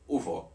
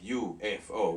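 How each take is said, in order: First: It is spoken quickly as one word. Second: Each letter is spoken separately. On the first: "we just said U F O. And we still say it like that. It's faster" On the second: "we didn't pronounce them like U F O"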